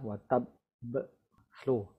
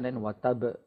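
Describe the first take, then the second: First: The b is held with a delay before release. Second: The b is said once, without any hold. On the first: The speaker calls it right. "But with the shadda, watab slow. There's a delay in between before the b sound" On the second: The speaker calls it wrong. "If without the shadda"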